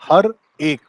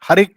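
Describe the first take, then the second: First: The two words are said separately. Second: The two words are run together as one. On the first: "उसने ऐसे नहीं गाया इसको" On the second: "हर एक कर दिया है उसे"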